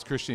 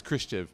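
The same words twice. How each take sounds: First: Said in the usual way. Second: Christian clipped to "Christi", the ending dropped; little son saying Christian wrong, cutting off the end; child's mispronunciation. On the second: Retold or imitated. Father imitating son who can't say Christian, clipped. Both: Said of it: "he can't pronounce Christian".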